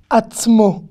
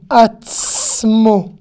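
First: "Atzmo" as one compact word; "Atzmo" with t straight into s; TS demonstration. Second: "Atzmo" with a long hissed ts; "Atzmo" slowed around a lengthened ts; drawn-out TS. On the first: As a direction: model "Atzmo" with a short ts. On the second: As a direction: stretch the s of ts in "Atzmo", then land on mo. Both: Shown as a demonstration. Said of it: "c'est un T et un S consécutif".

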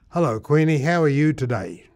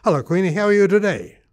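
First: Loud, careful, slowed greeting; slow speech. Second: Same greeting, quicker, higher and louder; faster. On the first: Man talking to his horse Queenie, slow speech. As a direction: speak slowly so the horse understands. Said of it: "I spoke slowly to Queenie". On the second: Testing quicker speech on his horse Queenie, faster. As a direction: speed it up, pitched up and loud. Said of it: "say that even a bit faster". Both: Retold or imitated.

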